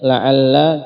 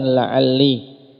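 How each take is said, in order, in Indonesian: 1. Kata itu berakhir dengan vokal a. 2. Kata itu berakhir dengan vokal i. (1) "di fathah" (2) "di kasrah"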